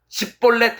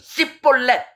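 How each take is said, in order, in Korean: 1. 이 단어는 예사소리로 시작해요. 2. 이 단어는 된소리로 시작해요. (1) "십볼렛 해봐" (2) "씨볼렛 이렇게 하면 죽여버렸습니다"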